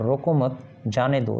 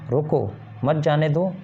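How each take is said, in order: First: रोको मत as one unit, then जाने दो separately; pause after मत. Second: रोको on its own, then मत जाने दो joined; pause after रोको. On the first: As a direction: join रोको to मत and break before जाने दो. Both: Shown as a demonstration. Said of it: "दोनों अलग-अलग अर्थ स्पष्ट करते हैं".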